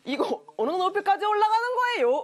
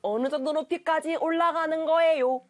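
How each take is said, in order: First: High, overdone fake Seoul lilt; exaggerated wrong Seoul accent. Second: More restrained Seoul intonation, slightly high; correct Seoul accent. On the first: Teacher imitating people who copy it wrongly, overdone Seoul accent. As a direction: mimic a botched Seoul accent, pitched way up. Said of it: "잘못 따라하시는 분들이 이게 막 이런 식으로". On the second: Shown as a demonstration. Teacher correcting the wrong imitation, proper Seoul accent. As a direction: model the Seoul lilt without overdoing it. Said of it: "절대로 그게 아니라".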